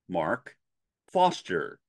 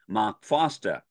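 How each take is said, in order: First: It is said in a General American accent. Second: It is said in a Boston accent. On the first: The speaker calls it right. "the correct way to say it from an, a general American standard English version" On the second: The speaker calls it wrong. "a Bostonian accent"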